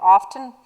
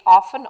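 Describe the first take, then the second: First: OFTEN said as "off-ten"; "often", a clear t after the f; "often" with the t sounded. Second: OFTEN said as "offen"; "often", f straight into the n; "often" with silent t. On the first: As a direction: pronounce the t in "often". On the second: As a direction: leave the t out of "often". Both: Shown as a demonstration. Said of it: "they're saying it often or often".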